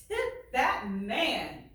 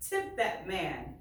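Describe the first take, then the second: First: Tip that man said slowly and louder, Tip punched; emphatic repeat. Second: Said in the usual way. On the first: Shown as a demonstration. Teacher rereading the line to her class, slow and emphatic.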